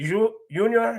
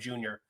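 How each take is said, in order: First: The name begins with a soft Y sound. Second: The name begins with a hard J sound. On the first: The speaker calls it right. "they just make it a, a Y. ... that's the proper pronunciation" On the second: The speaker calls it wrong. "calling him Junior by mistake"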